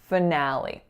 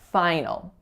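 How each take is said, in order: First: It ends in a tense 'ee' vowel sound. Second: It sounds like 'final', with no 'ee' ending. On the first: The speaker calls it right. "the first syllable is reducing to schwa. Our winner is that A sound, and then the final syllable is a tense E" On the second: The speaker calls it wrong. "ninety-five percent of my clients, when this word comes up, say final"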